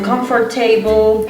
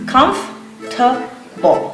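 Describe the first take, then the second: First: The 'or' sound after the f is pronounced. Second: The 'or' sound after the f is silent. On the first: The speaker calls it wrong. "They always say comfortable" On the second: The speaker calls it right. "the correct pronunciation is comfortable. So the O R, it's not pronounced"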